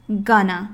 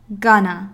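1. 这些词合并成一个短词。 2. 这些词合并成一个短词。

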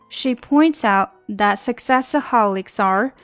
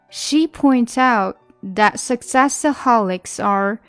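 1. 这句话读得比较快。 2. 这句话读得比较慢。

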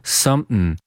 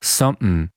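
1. 这个词是用喉塞音读的。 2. 这个词是用喉塞音读的。

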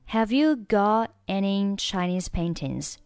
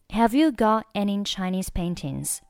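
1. 'got' 中的 t 完全不发音。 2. 'got' 中的 t 完全不发音。

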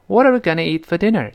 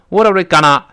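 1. 'gonna' 说得非常轻。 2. 'gonna' 说得很用力。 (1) "特别轻。 Gonna 就舌尖一弹跳就过去了。" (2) "不能够用力，不能读成"

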